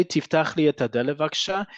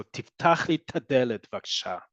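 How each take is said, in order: First: 'et hadelet' with both words kept, not merged; unelided form. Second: Hard popped t opening 'tadelet'; 'et ha' elided into a punchy 'ta' in 'tadelet'; implosive 'ta'. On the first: Teacher offering the standard alternative, 'et hadelet' unelided. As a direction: keep the 'et' and 'ha' in 'et hadelet'. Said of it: "You don't have to speak like this". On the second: Teacher modelling emphatic spoken Hebrew, 'tadelet' with implosive ta. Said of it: "ta has to be a very implosive". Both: Shown as a demonstration.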